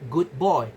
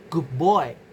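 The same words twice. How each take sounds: First: Good ends in a clear d sound. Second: Good ends in a b sound before boy.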